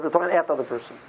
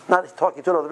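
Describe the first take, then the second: First: "at" pressed, quieter line; stress on at. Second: "to" given clear weight; stress on to. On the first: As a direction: lean on "at" to show the fault. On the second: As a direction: mark "to" as the contrast word. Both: Shown as a demonstration.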